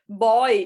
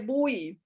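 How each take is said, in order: First: The word sounds like 'boy'. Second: The word sounds like 'boo-ee'. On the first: The speaker calls it wrong. "Eu acho que eu falava" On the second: The speaker calls it right. "e é bui"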